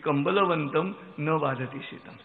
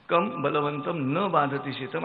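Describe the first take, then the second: First: 'Kambalavantam' is said as one word, no break. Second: There is a break after the syllable 'kam'. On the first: The one who has a blanket is not bothered by cold. "त्याचं उत्तरही तेच आहे की" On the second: It asks whom, being strong, the cold does not bother. "बलवंताला थंडी का वाजत नाही"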